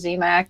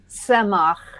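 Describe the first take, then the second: First: The name begins with a z sound. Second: The name begins with a ts sound. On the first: This is the family's Americanized pronunciation. The speaker calls it wrong. "we just went for Z MAC" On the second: This is the original Hebrew pronunciation. The speaker calls it right. "more like Semach ... a t instead of a z"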